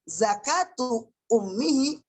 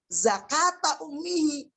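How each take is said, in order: First: The word zakat ends with a 'u' vowel. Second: The word zakat ends with an 'a' vowel. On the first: The phrase is the predicate of the sentence. "membaca dengan cara rafa" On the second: A dropped word meaning 'like' is understood before it. "jadi fathah, jadi nasab"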